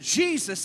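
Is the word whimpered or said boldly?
boldly. It is said strongly and boldly.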